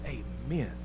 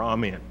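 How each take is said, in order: First: Amen said as "AY-men", soft and falling; a quiet, drawn "AY-men" to close the reading; Amen with long A. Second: Amen said as "AH-men", short and falling; a quick, low "AH-men" slipped in; Amen with broad A. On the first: Preacher closing scripture with a hushed "AY-men". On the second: Preacher ending his point with a clipped "AH-men". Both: Shown as a demonstration. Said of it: "putting the emphasis on the wrong syllable".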